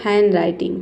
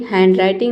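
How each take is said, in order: First: हैंडराइटिंग as "han-writing", D dropped; silent D. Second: हैंडराइटिंग as "hand-writing", D pronounced; wrong sounded D. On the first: Teacher gives the correct reading, silent D. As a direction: go from N straight into R in हैंडराइटिंग. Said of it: "ये होता है". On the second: Teacher shows what it is not, D sounded. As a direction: put a D before the R in हैंडराइटिंग. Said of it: "नहीं होता है". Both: Shown as a demonstration.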